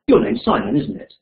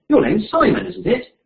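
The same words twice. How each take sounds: First: It sounds confident, expecting agreement. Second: It sounds surprised, like unexpected news. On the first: The speaker expects the answer yes. "One where you expect the answer yes" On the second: The speaker has just heard something unexpected. "where you've got expressed surprise because you've heard something you weren't expecting"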